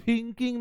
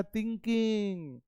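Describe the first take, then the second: First: "थिंकिंग" begun with a puffed थ; "थिंकिंग" with a heavy, spitting th; over-aspirated th. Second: "थिंकिंग" begun between त and थ; "थिंकिंग" with a dental t-like start, no spitting puff; soft dental th. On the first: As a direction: say "थिंकिंग" with a strong burst of air on th. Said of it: "थिंकिंग नहीं बोलना है". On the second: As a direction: say "थिंकिंग" with tongue-tip th, little air, softly. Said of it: "त और थ का बीच में बोलना है". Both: Shown as a demonstration.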